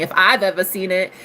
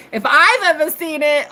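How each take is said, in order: First: Said in the usual way. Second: "if I've ever seen it" pitched up high for emphasis; emphatic repeat. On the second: Real, not acted. Gushing about a practitioner, "if I've ever seen it" high and emphatic.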